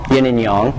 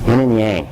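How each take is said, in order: First: Yang is said with a non-anglicized vowel. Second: Yang is said with an anglicized vowel. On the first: The speaker calls it right. "but it's yang" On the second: The speaker calls it wrong. "the English have taught us this neat way of saying yin and yang"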